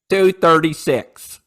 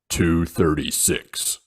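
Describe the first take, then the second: First: It is said in a natural, ordinary voice. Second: It is said in a deep, monotone voice.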